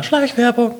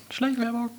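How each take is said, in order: First: High squeaky aside; high joke voice. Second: High, soft squeaky aside; high quiet joke voice. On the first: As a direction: squeak out the word as a gag. Joking aside about product placement. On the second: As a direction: softly squeak it as a running gag. Repeated joke about product placement. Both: Pretend.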